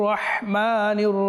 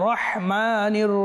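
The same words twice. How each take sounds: The two takes are said the same way.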